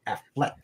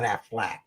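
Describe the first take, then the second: First: "Affleck" ending in -eck. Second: "Affleck" ending in -ack; Affleck as Aflac. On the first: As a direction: say "Affleck" with a short E in the last syllable. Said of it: "There's an E in there". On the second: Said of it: "not Affleck". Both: Shown as a demonstration.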